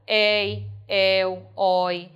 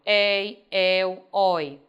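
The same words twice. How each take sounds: First: "Ei, el, oi" with open vowels, each sounded separately and firmly; teacher's demo of "Ei, el, oi" as open diphthongs. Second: "ei, el, oi" with closed vowels, each sounded separately; teacher's demo of "ei, el, oi" as closed diphthongs. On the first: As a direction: pronounce "Ei, el, oi" with open é and ó sounds, one at a time. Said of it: "Ditongo aberto ainda". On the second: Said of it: "agora ele é fechado". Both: Shown as a demonstration.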